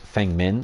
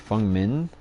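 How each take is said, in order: First: The first name has an 'eh' vowel. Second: The first name has an 'uh' vowel. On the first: The speaker calls it wrong. "obviously as everyone pronounces it" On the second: The speaker calls it right. "the E is effectively a U sound. So it's supposed to be"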